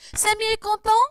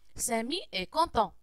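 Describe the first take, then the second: First: The voice rises at the end, like a question. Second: The voice falls at the end, like a statement. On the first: It asks a yes-or-no question. "l'interrogation par intonation. Ici, on change seulement la voix" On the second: It states a fact. "C'est une phrase déclarative"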